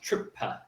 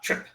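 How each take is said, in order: First: An extra vowel is added after the final p. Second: The word ends sharply on the p sound. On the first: The speaker calls it wrong. "you are sounding like trippa" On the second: The speaker calls it right. "not trip"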